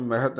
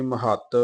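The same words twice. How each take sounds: First: ਮਹਤ without the doubled consonant; wrong reading. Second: ਮਹੱਤ with a doubled ਤ; doubled consonant. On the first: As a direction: say ਮਹਤ with a single, undoubled ਤ. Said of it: "ਇਹਨੂੰ ਮਹਤ ਨਹੀਂ". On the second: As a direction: hold the ਤ in ਮਹੱਤ as a geminate. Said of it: "ਅਦਕ ਦੇ ਨਾਲ ਉਚਾਰਨ ਕਰਨਾ". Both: Shown as a demonstration.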